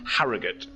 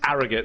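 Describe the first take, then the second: First: Posh accent, with the H sounded. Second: West Yorkshire accent, with the H dropped.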